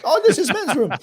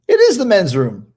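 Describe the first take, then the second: First: High-pitched imitation Japanese accent; hammed-up Japanese accent, much higher; mock Japanese accent. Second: Higher, louder retort with IS punched; retold comeback, emphatic IS; stress on IS. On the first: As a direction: squeal it in a caricatured Japanese accent. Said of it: "speaking super Japanese". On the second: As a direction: hit IS hard, correcting someone. Retold correction of the storyteller.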